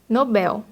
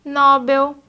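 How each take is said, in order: First: Nobel stressed on BEL with open e; correct stress. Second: Nobel stressed on NO, said louder; wrong stress. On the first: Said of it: "o correto é Nobel". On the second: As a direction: lean on NO in Nobel. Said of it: "quando o correto é Nobel". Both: Shown as a demonstration.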